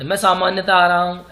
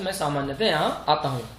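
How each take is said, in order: First: Louder take stressing "आ रहा"; the wrong sentence with "आ" pushed loud; a loud wrong form, "आ रहा हूँ" leaned on; wrong version. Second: Said in the usual way. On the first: Shown as a demonstration. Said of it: "ऐसे नहीं बोलते". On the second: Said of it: "हम बोलते हैं".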